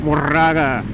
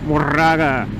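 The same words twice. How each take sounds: First: The name is said with a Spanish pronunciation. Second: The same.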